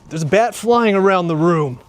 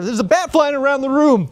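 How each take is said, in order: First: It is said at a slower pace. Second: It is said at a quicker pace.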